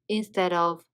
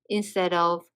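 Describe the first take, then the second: Both takes have the same delivery.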